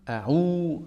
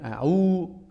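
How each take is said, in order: No difference in how they are said.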